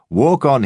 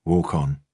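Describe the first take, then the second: First: Higher, louder sneering parody of the command; taunting copy of the dog owner; mocking imitation. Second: Said in the usual way. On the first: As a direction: parrot his order to ridicule him. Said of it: "he says". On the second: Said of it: "I said".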